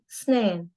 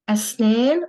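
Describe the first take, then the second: First: The word begins directly with an "s" sound. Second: The word begins with an "a" vowel sound.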